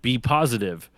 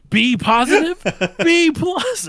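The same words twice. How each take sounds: First: Said in the usual way. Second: High, loud mock outrage; outraged disbelief. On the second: Dad mishearing son's blood type as a grade, outraged. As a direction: explode in hammed-up disbelief.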